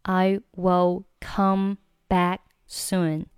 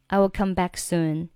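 First: "I will come back soon" very slow, each word separate; slow word-by-word demo. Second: Said in the usual way. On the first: Shown as a demonstration. Teacher separates words, then reads connected. (逐词慢读示范)

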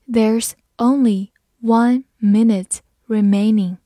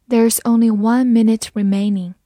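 First: Slow and emphatic, word by word; slow read-along. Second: Said in the usual way. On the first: Shown as a demonstration. Teacher has learners follow the example, slow read-along. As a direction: give each word its own space, firmly. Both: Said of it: "慢慢来读".

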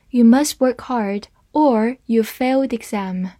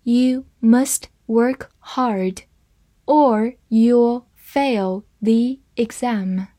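First: Said in the usual way. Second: Very slow, careful read-through; deliberate slow model sentence. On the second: Shown as a demonstration. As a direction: read it slowly for the class. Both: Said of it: "好，慢慢来读。".

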